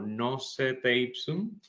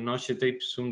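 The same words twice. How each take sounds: First: It is read with Spanish letter sounds. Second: It is read with Italian letter sounds. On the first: "si la leemos hasta como si fuera una palabra en español" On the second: "desde la italización"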